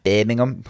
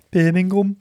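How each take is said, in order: First: Put-on "Birmingham" in a light Scouse accent, Liverpool vowels. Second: Said in the usual way. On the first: Co-host says where the Games are, in a Scouse accent. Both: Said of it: "I'm saying it with Scouse accent".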